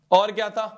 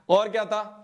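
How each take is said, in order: Both takes have the same delivery.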